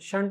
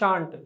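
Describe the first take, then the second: First: The vowel is short, like 'shunt'. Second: The vowel is long and open, like 'shaant'. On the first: The speaker calls it wrong. "షంట్ అనొద్దండి" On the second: The speaker calls it right. "పలకడం ఎలా పలకాలి? షాంట్"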